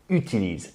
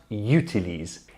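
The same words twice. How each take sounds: First: It starts with a pure French u vowel. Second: It starts with an English-like y sound. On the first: The speaker calls it right. "utilise is pronounced u" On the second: The speaker calls it wrong. "and not utilise"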